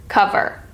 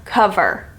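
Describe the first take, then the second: No difference in how they are said.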